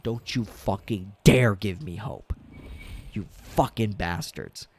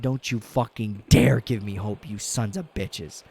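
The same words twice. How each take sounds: First: Retold scream. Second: Louder retold yell at the team; mock yell at the team; retold scream. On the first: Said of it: "I got up and I screamed". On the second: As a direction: shout it at the TV again, hammed up. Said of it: "I said".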